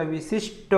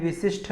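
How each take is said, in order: First: विशिष्ट ending in unaspirated "sht"; no puff ending विशिष्ट; correct विशिष्ट. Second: विशिष्ट ending in aspirated "shth"; wrong विशिष्ट. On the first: Teacher giving correct form, विशिष्ट as "visisht". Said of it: "विशिष्ट होता है". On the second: Teacher rejecting the error, विशिष्ट as "visishth". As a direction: puff the last t of विशिष्ट. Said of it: "ठ नहीं होगा". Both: Shown as a demonstration.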